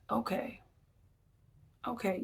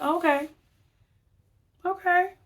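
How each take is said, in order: First: Quiet, resigned okay, okay; soft knowing okay. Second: Pitched way up, loud sing-song okay; a high, pointed okay that means I see you now; the relationship okay. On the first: Shown as a demonstration. To a spouse after losing the argument, soft resigned okay. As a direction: let it drop, a soft defeated okay. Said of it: "you know the okay". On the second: Retold or imitated. To someone who just insulted her, high pointed okay. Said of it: "I'm like".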